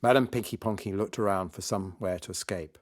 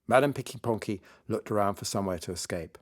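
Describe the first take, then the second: No difference in how they are said.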